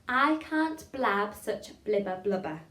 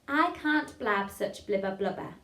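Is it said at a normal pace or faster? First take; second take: normal; faster. First: It is said at a normal pace. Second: It is said a little faster.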